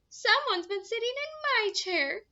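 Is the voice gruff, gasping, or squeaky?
squeaky. It is said in a high, squeaky voice.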